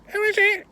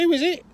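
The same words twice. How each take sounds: First: Piercing, very high parrot squawk. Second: Put-on very high, loud old-lady shout; old woman calling. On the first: Acted. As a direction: screech it back like a mimicking parrot. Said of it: "The parrot goes". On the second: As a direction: call out like a half-deaf old lady. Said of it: "She goes".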